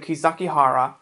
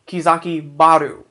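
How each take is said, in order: First: The name ends with the sounds 'hara'. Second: The name ends with the sounds 'baru'.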